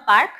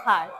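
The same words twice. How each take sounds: First: Park with an unaspirated, hard p; the wrong park, no puff after the p; plain p in park. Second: Park with a puffed, f-like p; airy p in park. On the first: Teacher shows the class what to avoid, puffless p in park. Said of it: "not park". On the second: Teacher gives the class the correct word, aspirated p in park. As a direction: release air on the p of park. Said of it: "it's park". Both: Shown as a demonstration.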